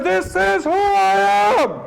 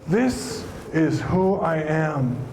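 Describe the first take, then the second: First: It is said with very high, powerful energy. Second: It is said with calm, moderate energy.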